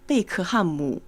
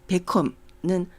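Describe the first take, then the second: First: The name is said with Chinese sounds. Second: The name is said with Korean sounds.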